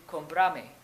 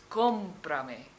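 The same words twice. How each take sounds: First: "comprame" stressed on the middle syllable, com-PRA-me; stress shifted off the O. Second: "comprame" punched on the first syllable, COM-pra-me; stress on the O. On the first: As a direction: move the weight onto "pra" in "comprame". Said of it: "without the accent". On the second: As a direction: hit the O hard in "comprame", then let "prame" fall away. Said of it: "put an accent on the O". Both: Shown as a demonstration.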